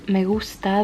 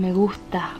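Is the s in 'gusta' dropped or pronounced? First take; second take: pronounced; dropped. First: The s sound in gusta is pronounced. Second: The s sound in gusta is dropped.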